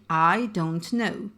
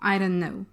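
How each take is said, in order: First: Every sound is pronounced clearly and fully. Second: Some sounds are dropped and run together. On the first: "carefully pronouncing every sound" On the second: "That's elision"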